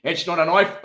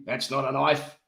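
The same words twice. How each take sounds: First: Higher, louder mock South African accent. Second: Attempted Australian film-quote accent; Crocodile Dundee. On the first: Teasing co-host over his attempt, exaggerated South African accent. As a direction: mimic it as botched South African. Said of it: "turn into a South African". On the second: Quoting the film to co-host, mock Australian accent. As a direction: put on a mock Aussie accent. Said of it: "Crocodile Dundee".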